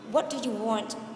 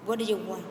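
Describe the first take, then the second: First: Each word is said separately and in full. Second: The words run together in a reduced form.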